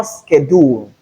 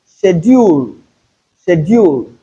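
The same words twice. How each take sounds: First: Schedule starting with SK, SKED-ool; non-British schedule. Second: Schedule starting with SH, SHED-yool; British pronunciation of schedule. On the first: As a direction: open schedule on a hard "sk". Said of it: "And not schedule". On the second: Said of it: "As long as British English is concerned". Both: Shown as a demonstration.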